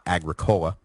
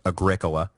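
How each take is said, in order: First: The stress is on the third syllable. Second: The stress is on the second syllable. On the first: The speaker calls it wrong. "not Agricola, which... sounds like some kind of terrible hippie soda" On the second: The speaker calls it right. "it is Agricola"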